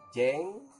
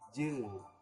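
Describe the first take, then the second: First: The vowel sounds like a clear e. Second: The vowel is a blended eu sound. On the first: The speaker calls it wrong. "bukan jeng" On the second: The speaker calls it right. "tapi jeng"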